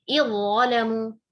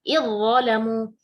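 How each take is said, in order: The two takes are said the same way.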